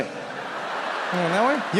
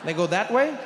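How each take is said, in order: First: Slowed-down, giggly sneak; slow, laughing stretch. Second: Said in the usual way. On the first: Shown as a demonstration. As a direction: drag it out slowly while laughing. Dodging round the car.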